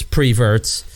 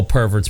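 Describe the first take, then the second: First: "preverts", starting pree instead of per; PERVERTS pronounced PREVERTS. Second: Said in the usual way. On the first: Shown as a demonstration. Archie mispronouncing perverts, said as "preverts". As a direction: say "preverts" with the r moved before the vowel. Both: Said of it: "Archie used to call perverts preverts".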